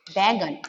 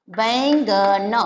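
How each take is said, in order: First: Said in the usual way. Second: "बैंगन" stretched very slow, every sound drawn out; slow drawn-out word. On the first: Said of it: "इसको बैंगन पढ़ते हैं". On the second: Shown as a demonstration. Teacher showing children the word, drawn out slowly. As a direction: draw out बैंगन slowly for the class. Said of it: "ब पे ऐ की मात्रा बैगन".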